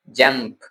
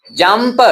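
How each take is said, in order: First: जंप as one syllable, closed on the p; correct pronunciation. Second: जंप with an extra vowel on the end, like jum-per; wrong pronunciation. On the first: Teacher gives learners the right way, correct pronunciation. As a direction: say जंप low and soft, no vowel after the p. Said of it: "ऐसे नहीं बोलना, बल्कि". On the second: Teacher shows learners what not to say, mispronounced. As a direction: say जंप as two syllables, higher, tailing into "per". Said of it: "ऐसे नहीं बोलना". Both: Shown as a demonstration.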